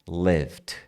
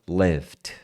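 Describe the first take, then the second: Both takes have the same delivery.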